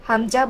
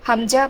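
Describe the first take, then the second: The two takes are said the same way.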